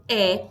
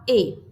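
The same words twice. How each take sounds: First: "E" said as open eh; teacher's demo of open "E". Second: "E" said as closed ê; teacher's demo of closed "E". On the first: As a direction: isolate the vowel "E" with an open sound. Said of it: "eu tenho um som aberto". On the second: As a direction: isolate the vowel "E" with a closed sound. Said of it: "eu tenho um som fechado". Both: Shown as a demonstration.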